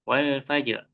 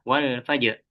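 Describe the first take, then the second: The two takes are said the same way.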